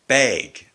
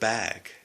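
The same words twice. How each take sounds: First: Bag is said with the local Ontario vowel. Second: Bag is said with the standard, non-local vowel. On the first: "people say bag instead of" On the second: "instead of bag"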